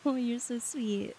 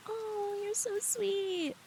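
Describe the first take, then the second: First: Slow, settled appreciation; gently touched, drawn out; tender thanks. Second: High, soft, drawn-out coo; touched, melting squeal, slow and soft; gushing. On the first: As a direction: say it slowly and sincerely, near usual pitch. Repeats thanks in a lower voice. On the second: Gushing at a viewer's compliment. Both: Real, not acted.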